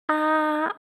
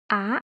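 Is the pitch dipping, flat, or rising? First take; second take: flat; rising. First: The pitch stays high and level throughout. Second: The pitch rises from middle to high. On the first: "the first tone sounds quite even and flat" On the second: "the second tone sounds a bit ascending"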